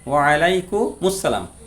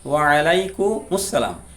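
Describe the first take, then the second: The two takes are said the same way.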